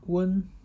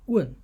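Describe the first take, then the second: First: The syllable is said with the first tone. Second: The syllable is said with the fourth tone.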